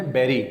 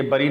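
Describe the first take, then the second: First: بیری as "BERR-ee"; an e vowel in بیری; correct pronunciation. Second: بری as "BURR-ee"; short uh vowel in بری; wrong pronunciation. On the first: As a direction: say بیری to rhyme with very. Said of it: "اصل میں ہے". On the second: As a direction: say بری as the spelling suggests. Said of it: "یہ بری نہیں ہے". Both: Shown as a demonstration.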